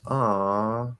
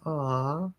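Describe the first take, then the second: First: The pitch is pulled downward and ends lower. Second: The pitch stays high without pulling downward. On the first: "there's going to be sort of this downward pull on it" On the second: "where it stays kind of higher"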